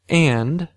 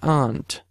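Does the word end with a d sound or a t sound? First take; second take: d; t. First: The word ends with a voiced d sound. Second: The word ends with a voiceless t sound. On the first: "I started with and" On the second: "I turned it into ant"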